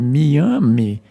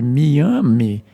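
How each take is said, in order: First: The name is said the old indigenous way. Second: The same.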